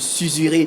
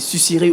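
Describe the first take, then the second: First: The middle consonant is a buzzing z sound. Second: The middle consonant is a hissing s sound. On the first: This is what the spelling rule would lead one to expect. "au lieu de susurrer, puisque le S est placé entre deux voyelles" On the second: This is how the word is actually read. "ça se lit euh, susurrer"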